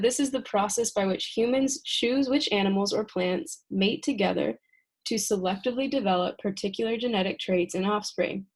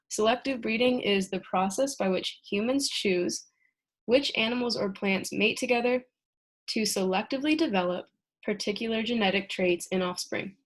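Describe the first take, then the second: First: It is read at a faster pace. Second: It is read at a slower pace.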